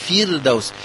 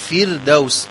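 No difference in how they are said.

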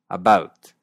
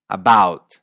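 First: It is said with a Canadian accent. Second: It is said with a standard American accent.

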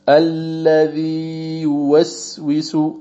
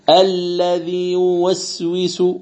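First: The long vowel before the y is held fully. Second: The long vowel before the y is cut short. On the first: The speaker calls it right. "فالصواب ما بيناه" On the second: The speaker calls it wrong. "يمدها قليلا ثم ينطق بالياء"

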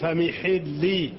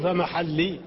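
First: The m is followed by an i vowel. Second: The m is followed by a non-i vowel. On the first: The speaker calls it right. "فبكسر الميم" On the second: The speaker calls it wrong. "لا تقول"

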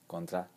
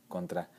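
No difference in how they are said.

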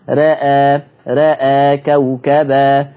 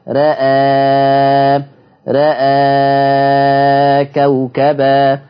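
First: The vowel after the hamza is held briefly. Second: The vowel after the hamza is held moderately. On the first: "وقفت بقصر ووصلت بالقصر" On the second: "ووقفت بالتوسط مع تقليل الراء والهمزة برضو وصلت بالتوسط"

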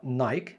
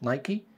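First: The word ends on a k sound. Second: The word ends on an ee vowel. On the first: The speaker calls it wrong. "هو يحصل حاجة لو نطقتها نايك" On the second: The speaker calls it right. "النطق الصحيح ليها هو نايكي"

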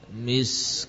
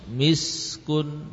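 First: The word stops on the final consonant sound. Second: The word ends with an added vowel and n. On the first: The reading pauses on this word. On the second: The word is joined to what follows.

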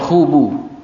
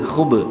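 First: A short u vowel follows the b. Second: The b ends the syllable with no vowel. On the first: The speaker calls it wrong. "bukan khubu" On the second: The speaker calls it right. "Ba'nya dengan harokat sukun ya"

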